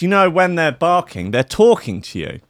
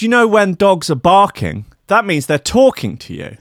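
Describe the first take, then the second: First: Higher earnest hippie voice, easing down; imitating the mad woman again. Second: Higher, louder, earnest hippie voice; mock the woman's sincere, knowing tone; imitating the mad woman. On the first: Retelling the café woman's dog claim: high mock earnestness. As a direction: repeat her lecture in a mock earnest tone. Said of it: "She goes". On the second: Mocking the woman in the café: high, earnest imitation. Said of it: "she goes".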